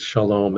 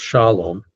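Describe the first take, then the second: First: Shalom stressed on "lom"; end-stressed shalom; usual last-syllable stress. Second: Shalom stressed on the first syllable, "SHA-lom"; front-stressed shalom as in the song; song variant stress. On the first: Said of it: "it's shalom". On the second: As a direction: move the weight to the front of shalom. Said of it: "it ends up being pronounced shalom". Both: Shown as a demonstration.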